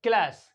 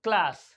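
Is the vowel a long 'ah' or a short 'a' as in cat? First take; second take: short a; short a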